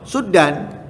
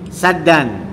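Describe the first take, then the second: First: The first vowel is 'u'. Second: The first vowel is 'a'. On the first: This is the reading tradition in another region. "Di sana enggak suddan" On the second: This is the local reading tradition. "di sini kita membacanya saddan"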